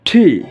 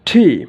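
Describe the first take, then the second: The two takes are said the same way.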